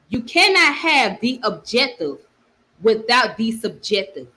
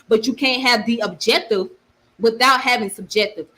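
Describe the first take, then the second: First: It is said slowly. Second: It is said at normal speed.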